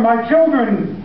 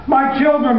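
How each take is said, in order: First: Put-on "my children" drawn out slowly and high; a father's slower, pleading second call; shouted. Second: Put-on high, desperate cry of "My children"; a frantic father's first call; shouted. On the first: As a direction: stretch "my children" as the panic grows. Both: A narrator's reading. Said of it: "he shouted".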